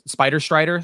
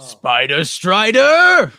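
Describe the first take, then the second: First: It is said in a normal voice. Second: It is said in a supervillain voice.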